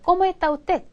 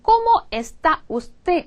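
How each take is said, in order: First: The s sounds are dropped. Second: The s sounds are clearly pronounced. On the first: "이렇게 들려요... S를 다 먹은 거예요" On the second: "우리 배운 como está usted"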